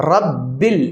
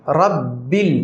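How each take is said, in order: The two takes are said the same way.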